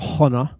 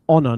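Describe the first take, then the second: First: The word begins with an audible H sound. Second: The word begins with a vowel, no H. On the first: The speaker calls it wrong. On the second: The speaker calls it right.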